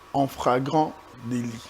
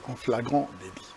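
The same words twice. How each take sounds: First: The word begins with an fr sound. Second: The word begins with an fl sound. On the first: The speaker calls it wrong. "c'est souvent pour les gens qui disent" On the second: The speaker calls it right. "alors que c'est"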